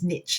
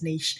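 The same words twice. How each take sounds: First: It is said the American way. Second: It is said the British way.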